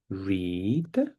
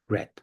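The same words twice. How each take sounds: First: The vowel is long, as in seed. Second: The vowel is short, as in bed. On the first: The action happens now. "I can say this is for present time" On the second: The action happened in the past. "And this one is for past time"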